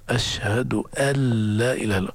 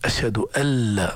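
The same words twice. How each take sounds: First: أن لا run together as "أَلَّا", no nun heard; the correct assimilated reading of أن لا; nun merged into lam. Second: أن said with a doubled, stressed nun; wrong stressed أنّ before لا. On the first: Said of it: "الصواب إدغام النون الساكنة في اللام". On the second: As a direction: lean hard on the nun of أن. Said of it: "تشديد أن غلط". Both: Shown as a demonstration.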